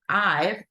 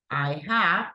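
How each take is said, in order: First: It is said as one contracted syllable. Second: It is said as two full words.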